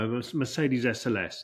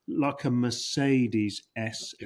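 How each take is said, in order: First: It is said at normal speed. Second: It is said slowly.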